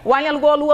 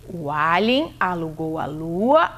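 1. A frase é falada em ritmo muito rápido. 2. A frase é falada em ritmo moderado. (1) "Mais rápido ainda" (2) "deixa eu ver se eu entendi"

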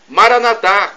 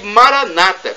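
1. A tônica está na última sílaba. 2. A tônica está na penúltima sílaba. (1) "com a tônica na última sílaba" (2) "que tonificam a penúltima sílaba"

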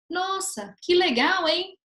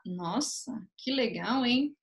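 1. O tom soa sincero e genuinamente animado. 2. O tom soa irônico e debochado. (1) "é muito diferente eu falar" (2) "Na segunda parte eu estou sendo irônica"

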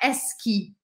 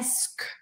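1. A palavra termina com um i acrescentado. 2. A palavra termina em um som de k puro. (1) "Não é esqui" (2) "é esc ... o som de k, sem vogal nenhuma"

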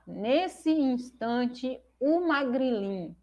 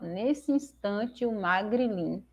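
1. Cada vogal entre palavras é pronunciada como sílaba separada. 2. Vogais vizinhas entre palavras se fundem em uma única sílaba. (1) "ao invés de falar nesse instante, o Magrilin" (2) "a gente fala nesse instante, o Magrilin, para que a gente tenha quatro tônicas"

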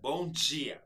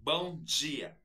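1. O d em dia soa como um dj chiado. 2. O d em dia soa como um dj chiado.

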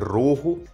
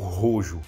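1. O nome é falado na pronúncia original. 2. O nome é falado com pronúncia brasileira. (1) "é o jeito certo de se falar, que é Rojo" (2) "aqui no Brasil é pronunciado erroneamente, né? Como Rojo"

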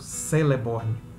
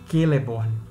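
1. O nome começa com um som de S suave. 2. O nome começa com um som de K forte. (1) "e não Celeborn" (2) "sempre tem o valor de K, jamais o de S. Portanto, Celeborn é Celeborn"

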